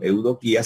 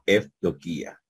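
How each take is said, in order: First: The first syllable has an eu vowel sound. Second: The first syllable has an ef sound. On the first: "no diríamos eudoquía" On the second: "sino efdoquía"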